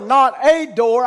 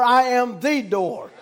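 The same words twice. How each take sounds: First: Slow, weighted "a" in "not a door"; stress on A. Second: Slow, emphatic "the" before "door"; stress on THE. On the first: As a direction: draw out "a" as the word being rejected. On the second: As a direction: lean on "the" to mean the one and only. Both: Real, not acted.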